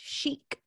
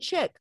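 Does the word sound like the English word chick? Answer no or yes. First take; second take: no; yes. First: The word does not sound like chick. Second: The word sounds like the English word chick. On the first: The speaker calls it right. "it's pronounced chic" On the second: The speaker calls it wrong. "he thought it was like Italian chick"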